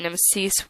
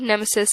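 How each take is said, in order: First: The name is pronounced the Greek way. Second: The name is pronounced the English way. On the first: "Nemesis was the Greek way" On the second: "Nemesis is the English way"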